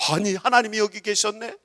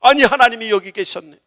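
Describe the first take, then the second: First: Raised, questioning surprise with rising end; acted wonder, lifting at the end; holy astonishment. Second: Loud, high amazed exclamation, falling end; acted wonder, landing as certainty; holy astonishment. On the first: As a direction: ask it in amazed discovery. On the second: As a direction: exclaim the discovery with force. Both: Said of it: "거룩하게 놀래보시기 바랍니다".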